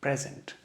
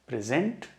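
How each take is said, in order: First: present said PREZ-unt, first syllable stressed. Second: present said pri-ZENT, second syllable stressed. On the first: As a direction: put the weight up front in present: PREZ-unt. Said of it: "और ये है". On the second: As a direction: land the weight on the end of present: pri-ZENT. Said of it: "present बुला रहा हूँ और इसको present". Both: Shown as a demonstration.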